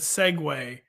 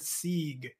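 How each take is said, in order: First: It is said in two syllables, seg-way. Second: It is said in one syllable, seeg. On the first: The speaker calls it right. "which is the pronoun- proper way to pronounce that word" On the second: The speaker calls it wrong. "super embarrassingly, a few weeks ago on the pod I said Sieg"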